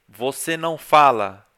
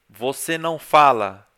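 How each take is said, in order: The two takes are said the same way.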